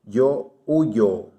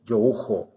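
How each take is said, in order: First: The 'y' sounds like a 'y' sound. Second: The 'y' sounds like a 'zh' sound. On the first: "em espanhol" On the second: "pronunciada como um J do português"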